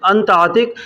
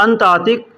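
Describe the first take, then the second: No difference in how they are said.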